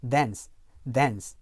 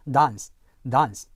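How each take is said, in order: First: DANCE with a front "a" as in cat; American short-A. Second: DANCE as "dahns", long open ah; British long ah. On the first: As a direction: say dance American-style, close to "dens". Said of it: "일반 미국 영어에서는요". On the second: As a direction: say dance British-style, vowel as in father. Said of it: "영국 표준 영어에서는요". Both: Shown as a demonstration.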